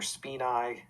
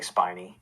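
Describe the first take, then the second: First: It is said with the Latin pronunciation. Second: It is said with the common English pronunciation. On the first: "is how that's pronounced in Latin" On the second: "but most people say spinae"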